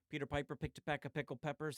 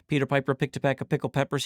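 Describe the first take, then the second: First: The voice is recorded twenty decibels quieter. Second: The voice is recorded at full level. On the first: "switch it to negative twenty D B" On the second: "let's test it out"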